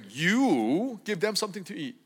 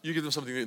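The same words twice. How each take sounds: First: It is said forcefully, with strong emphasis. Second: It is said plainly, without special emphasis.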